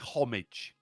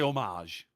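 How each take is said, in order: First: The word is given an English-style pronunciation. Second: The word is given a French-style pronunciation. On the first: "I say homage" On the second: "I don't say homage. ... Sounds too French"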